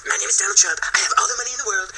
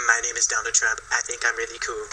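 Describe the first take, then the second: First: High-pitched boastful politician parody; swaggering mock president, pitched up; Donald Trump. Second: Low, soft early voice of a politician; understated, lower-pitched mock self-introduction; imagine the president before the swagger, low and quiet; Donald Trump. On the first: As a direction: brag in a raised, put-on presidential voice. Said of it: "And then it went from". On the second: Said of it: "probably first sounded like".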